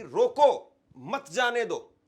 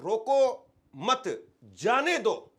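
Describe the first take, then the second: First: Loud रोको, pause, then मत जाने दो together; slow command pausing right after रोको. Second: रोको मत together, pause, then loud जाने दो; very slow, जाने दो set apart forcefully; comma after मत. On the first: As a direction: punch रोको, break, run मत जाने दो as one phrase. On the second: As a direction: hold the break until after मत, punch जाने दो. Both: Shown as a demonstration. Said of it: "पूरा meaning change हो जाता है".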